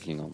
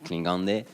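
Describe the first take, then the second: First: It is said short, like English Klingon. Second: It is said with the full Swedish ending. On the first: This is the form the artist prefers to use. "but I prefer to say Klingon" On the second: This is the original word in its home language. "the Swedish word is, is Klingande"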